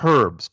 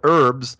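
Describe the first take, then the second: First: The word starts with an H sound. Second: The word starts without an H sound. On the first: The speaker calls it right. "we call it herbs because there's a fucking H in it" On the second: The speaker calls it wrong. "you call it herbs"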